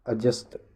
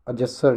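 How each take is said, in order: First: Said in the usual way. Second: अजस्सर ending in a full -sar; wrong -sar ending. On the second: Shown as a demonstration. Teacher quoting the mistake, -sar ending on अजस्सर. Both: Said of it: "अजस्सर नहीं".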